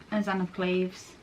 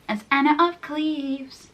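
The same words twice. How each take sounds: First: Said in the usual way. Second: "Anna of Cleves" higher, slow and stretched; drawn-out correction. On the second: Real, not acted. Correcting the role's name, "Anna of Cleves" stretched singsong.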